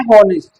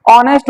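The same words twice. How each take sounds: First: हॉनेस्ट as spelt, with h; spelling reading of हॉनेस्ट, starting on h; h sounded. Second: ऑनेस्ट opening on the o vowel; spoken form ऑनेस्ट, h left out; h silent. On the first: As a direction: say हॉनेस्ट as "ho-nest", h audible. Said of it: "हॉनेस्ट नहीं ऑनेस्ट होता है". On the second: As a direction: say ऑनेस्ट as "o-nest", without h. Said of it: "और वैसे है हॉनेस्ट". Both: Shown as a demonstration.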